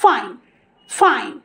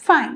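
First: "ফাইন" with a careful English f; correct fine. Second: Put-on "ফাইন" with the old loose first sound; old wrong fine. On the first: Teacher models the correction, careful "ফাইন". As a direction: blow the f of "ফাইন" cleanly. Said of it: "এখন থেকে আমরা বলবো". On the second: Teacher shows former habit, loose "ফাইন". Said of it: "আমরা বলতাম". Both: Shown as a demonstration.

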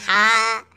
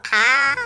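First: हाँ said long with a slight lift; long, coaxing हाँ; drawn-out हाँ. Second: हाँ stretched long on a higher pitch; long, high demonstration हाँ; wide-open हाँ. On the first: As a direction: show how to say हाँ, stretching it. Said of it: "अरे हाँ बोलो". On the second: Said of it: "ऐसा आ करो". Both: Shown as a demonstration.

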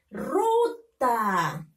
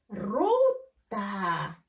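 First: Ruta read with long vowels and little gap; teacher reading ruta connected, falling at the end; syllables joined. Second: Ruta split as RU, pause, long TA; teacher separating the two syllables of Ruta. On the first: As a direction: blend "ruta" into one stretched word. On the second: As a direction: sound out "Ruta" with a gap before "ta". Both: Shown as a demonstration. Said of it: "Ahora tenemos que leerlo".

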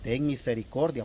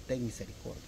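First: Said in the usual way. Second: "Ten misericordia" said softer, like a quiet prayer; reverent plea. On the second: Shown as a demonstration. Believer quietly praying "Ten misericordia" to God. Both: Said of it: "esa es la única palabra que nosotros podemos decir".

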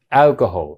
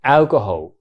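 First: Alcoholのaを強くはっきり; 頭のalを押し出す; 先頭に強勢. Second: Said in the usual way. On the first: Shown as a demonstration. (第一音節に強勢) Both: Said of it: "戦闘がストレスになるから".

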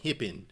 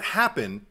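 First: Low, soft "hippin" with a closed first vowel; "happen" as "hippin". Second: "happen" with an open "a" as in "cat"; standard "happen". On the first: Showing co-host the lead's accent, "happen" said "hippin". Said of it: "hippin, H E P P I N". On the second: Contrasting the usual word for co-host, open-vowel "happen". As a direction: say "happen" plainly, H-A-P-P-E-N. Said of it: "not happen". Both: Shown as a demonstration.

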